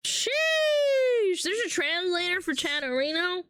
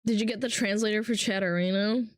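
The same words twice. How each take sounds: First: High drawn-out exclamation, then raised questioning; higher-pitched astonished question; surprised. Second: Said in the usual way. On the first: Real, not acted. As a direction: react amazed at the news. Reacts to the question just read.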